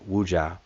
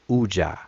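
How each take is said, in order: First: The word starts with a w sound. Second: The word starts without a w sound. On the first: The speaker calls it right. "it's better to pronounce Weja or or Wuja" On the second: The speaker calls it wrong. "they ignore the the um, W on the front, and they just say Uja"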